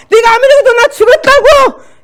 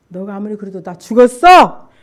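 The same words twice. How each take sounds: First: High, full-force defiant scream. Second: Measured insistence, loud on the last word; firm retort. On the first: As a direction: shriek it back at the devil. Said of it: "난 비명을 지르면서". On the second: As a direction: hold your ground without screaming. Firmer answer to devil's taunts. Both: Retold or imitated.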